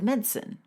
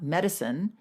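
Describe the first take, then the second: First: The word has a British pronunciation. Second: The word has a non-British pronunciation. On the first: "They would also say medicine" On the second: "not medicine"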